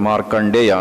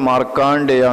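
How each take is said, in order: First: The second-syllable vowel is kept short. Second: The second-syllable vowel is drawn out long. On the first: This is the Sanskrit form. "ಯಾವಾಗಲೂ ಹ್ರಸ್ವವೇ ಇರುತ್ತೆ" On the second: This is the everyday Kannada form. "ನಾವು ಕನ್ನಡದಲ್ಲಿ ಹೇಳುವಾಗ ಮಾರ್ಕಾಂಡೇಯ ಅಂತ ಹೇಳ್ತೇವೆ"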